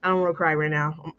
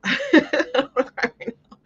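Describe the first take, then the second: First: Said in the usual way. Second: High, squeaky laughing repeat. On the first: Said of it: "I'm gonna cry". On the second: Real, not acted. Telling viewers she might cry, laughing it off in a high voice. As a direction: laugh through the words, pitch shooting up.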